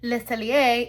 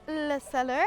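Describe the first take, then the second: First: The second word ends in a 'yay' sound. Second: The second word sounds like English 'cellar'. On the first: The speaker calls it right. "it's Le Cellier and not Le Cellar" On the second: The speaker calls it wrong. "despite how proudly I stated it"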